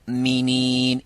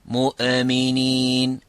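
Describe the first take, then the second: First: The hamza is a clean, held stop. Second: The hamza has an echoing bounce. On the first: The speaker calls it right. "in kuntum mu'minin" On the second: The speaker calls it wrong. "instead of mu'minin"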